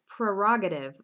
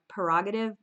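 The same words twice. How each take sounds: First: The r after the first p is pronounced. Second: The r after the first p is dropped. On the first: "That's a bit of a tough word to pronounce" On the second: "Some people don't even pronounce this first R"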